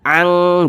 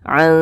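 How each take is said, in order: First: The n sound is pronounced clearly and fully. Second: The n sound is concealed and nasalized. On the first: The speaker calls it wrong. "jangan dibaca ang" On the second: The speaker calls it right. "tapi dibaca ang dinikum"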